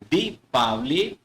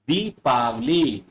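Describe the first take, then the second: First: The first vowel is said short. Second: The first vowel is said long. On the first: The speaker calls it wrong. "यहां छोटी ई है तो उच्चारण छोटा होगा यानी ये गलत है" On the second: The speaker calls it right. "जब हम प्रॉपर दीपावली बोलते और लिखते हैं तो वहां पर बड़ी की मात्रा"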